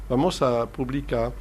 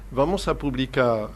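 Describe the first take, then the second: No difference in how they are said.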